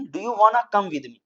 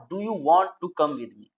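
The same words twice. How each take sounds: First: Slow "do you wanna come with me" with wanna blended; wanna, not want to. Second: Said in the usual way. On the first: Shown as a demonstration. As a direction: glide "wanna" as one slow word. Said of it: "not do you want to come with me". ("wanna" धीरे और मिलाकर)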